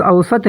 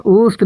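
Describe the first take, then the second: First: اوسط said as "aw-sat", two syllables opening on the "aw" diphthong with a clear v-glide; the proper اوسط, "aw-sat" with the glide kept; correct pronunciation. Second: اوسط said as "ust", one short syllable with a short u and no v; the common mistaken اوسط, clipped to "ust"; wrong pronunciation. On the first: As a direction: correct the learner: اوسط as "aw-sat", not "ust". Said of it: "بلکہ صحیح تلفظ اوسط ہے". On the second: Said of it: "جو کہ غلط ہے". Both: Shown as a demonstration.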